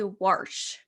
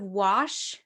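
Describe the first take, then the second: First: It is said with a Montana regional pronunciation. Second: It is said with a standard, non-regional pronunciation. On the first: This is how the speaker's father says it. "my dad would always say wash" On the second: This is the usual way to say it. "instead of wash"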